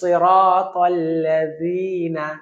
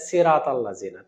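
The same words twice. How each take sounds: First: The first consonant is heavy and thick. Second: The first consonant is light, like a thin s. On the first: The speaker calls it right. "তো তখন বলতে হবে" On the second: The speaker calls it wrong. "এটা সিনের মতো শোনা গেল"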